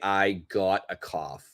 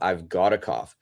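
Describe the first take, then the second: First: The v sound after I is dropped entirely. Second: The v sound after I is clearly heard.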